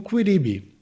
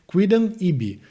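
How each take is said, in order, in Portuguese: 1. A vogal final é omitida, fundindo as duas palavras. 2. As duas palavras são ditas por inteiro, com todas as sílabas mantidas. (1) "uma pronúncia mais natural... seria a perda total dessa vogal final" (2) "a gente tem um quidam ibi"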